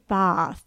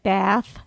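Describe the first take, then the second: First: It is said with an English vowel. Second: It is said with an American vowel. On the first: The speaker calls it right. "we were corrected by a very lovely English lady. She said, I find you will... pronounce it Bath" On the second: The speaker calls it wrong. "We were pronouncing it Bath. You know, like we would in this country"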